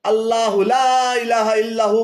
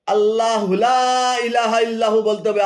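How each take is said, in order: First: "আল্লাহু লা" linked straight on as "আল্লাহুলা" with no break; joined recitation. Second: "আল্লাহু লা" said as its own chunk, then a break before "ইলাহা"; split wrong reading. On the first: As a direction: run "আল্লাহু" into "লা" smoothly. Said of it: "আল্লাহর হুকে লার সাথে মিলিয়ে". ("আল্লাহু লা" জুড়ে একটানা উচ্চারণ) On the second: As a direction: pause after "লা", wrong split. ("আল্লাহু লা" আলাদা করে থেমে, ভুল ভাগ) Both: Shown as a demonstration.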